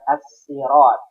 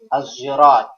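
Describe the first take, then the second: First: Sirat starts with a plain, light s sound. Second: Sirat starts with a z sound instead. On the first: "dibaca sin" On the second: "ada yang membaca lagi"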